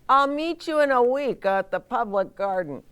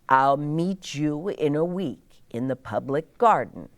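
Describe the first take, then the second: First: It is said in a quacking duck voice. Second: It is read in an ordinary voice.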